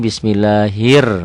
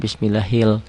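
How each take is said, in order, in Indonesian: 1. Kata ini diakhiri dengan bunyi R. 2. Kata ini diakhiri dengan bunyi L. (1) "Jadi dari sini bismillahir masuk ke sini" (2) "kok banyak yang baca bismillahil ... L-nya jangan dibaca"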